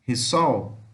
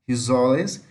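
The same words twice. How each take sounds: First: Risol short, with a final l sound; Portuguese word. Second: Risoles with a z sound and plural -es; Brazilian word. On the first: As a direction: clip risol to one syllable ending in l. (risol à portuguesa, curto, com l final) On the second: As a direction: say Risoles the Brazilian way, open ending. (Risoles à brasileira, com som de z) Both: Shown as a demonstration. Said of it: "essa pronúncia".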